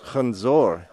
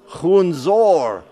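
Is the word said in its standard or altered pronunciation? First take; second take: standard; altered. First: The word has its standard Armenian pronunciation. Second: The word is said with an altered pronunciation. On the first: The speaker calls it right. "The word apple is khunzor" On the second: The speaker calls it wrong. "I'm saying khunzor"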